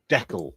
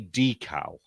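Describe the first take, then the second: First: The word rhymes with freckle. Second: The word does not rhyme with freckle. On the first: "that weird way ... like freckle" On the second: "So I say decal"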